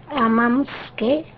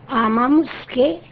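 No difference in how they are said.

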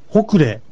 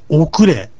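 First: The word begins with an h sound. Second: The word begins directly with a vowel. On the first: "H をつけて発音してもいいし" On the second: "この最初のH が落ちて発音されます"

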